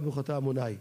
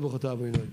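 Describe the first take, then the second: First: It is said in a Sephardic accent. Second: It is said in an Ashkenazi accent.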